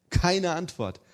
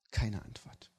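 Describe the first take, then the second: First: Louder and higher repeat; emphatic. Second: Quiet, falling. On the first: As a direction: hit it harder the second time. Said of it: "repeated phrase, second take louder". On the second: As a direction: drop it quietly. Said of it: "repeated phrase, first take quiet". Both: Shown as a demonstration.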